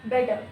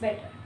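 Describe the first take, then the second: First: The middle t sounds like a soft d. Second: The middle t is a crisp, clear t. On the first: "American English में क्या होता है, जो टी है वो soft डी में convert हो जाता है" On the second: "British English में क्या होता है, टी की साउंड एकदम क्रिस्प होती है"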